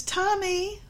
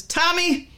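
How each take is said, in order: First: High, rising singsong call of the name. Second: Tommy high and louder with a firm falling end; warning tone. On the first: Mother calling her son in a sweet singsong. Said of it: "the emphasis in the tone of voice". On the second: Mother warning her son with a sharp falling call. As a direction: say Tommy like a mother about to scold. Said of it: "Emphasis gives understanding. Also warning". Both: Shown as a demonstration.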